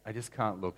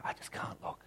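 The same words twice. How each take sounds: First: Said in the usual way. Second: Whispered, barely voiced; whispered despair. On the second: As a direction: whisper it, too afraid to look. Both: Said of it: "and he goes".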